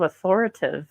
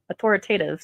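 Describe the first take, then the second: First: AUTHORITATIVE with the "ta" syllable dropped; mispronounced. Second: AUTHORITATIVE with every syllable, "au-THOR-i-tay-tive"; corrected pronunciation. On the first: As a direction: slip on "authoritative", saying "au-THOR-i-tive". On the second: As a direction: restore the "ta" in "authoritative". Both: Real, not acted.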